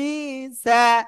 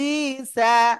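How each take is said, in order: The two takes are said the same way.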